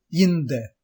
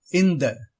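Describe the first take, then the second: First: இந்த said as "yinda"; wrong y onglide. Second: Said in the usual way. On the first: Shown as a demonstration. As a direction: put a y sound before இந்த. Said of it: "தவறான உச்சரிப்பு". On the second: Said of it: "சரியான உச்சரிப்பு".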